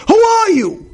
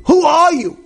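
First: Angry shout. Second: Angry repeat. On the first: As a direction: bellow "Who are you?" like an outraged husband. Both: Retold or imitated. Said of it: "now he's flipping out".

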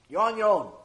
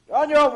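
First: Said in the usual way. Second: Higher, louder final refusal; loud, firm you're on your own; emphatic brush-off. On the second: Acted. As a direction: slam the door on him. Family refuses to go in.

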